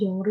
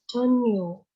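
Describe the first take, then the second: First: The second syllable starts with an R sound. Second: The second syllable starts with an N sound. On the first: The speaker calls it wrong. "tapi salah" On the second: The speaker calls it right. "Dibacanya jadi Chon, Chonyo"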